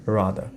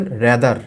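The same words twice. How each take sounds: First: "rather" as RAA-dhuh, no r at the end; native-style rather. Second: "rather" as RE-dar, r clearly heard at the end; sounded final r. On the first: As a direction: say "rather" low, letting it end on a schwa. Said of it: "দেখবেন যে ওরা বলে". ("rather"-এর শেষের র না শোনানো) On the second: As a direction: say "rather" the Bengali way, closing on r. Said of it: "আমরা র উচ্চারণ করছি". ("rather"-এর শেষে স্পষ্ট র) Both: Shown as a demonstration.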